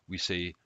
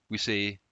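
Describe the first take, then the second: No difference in how they are said.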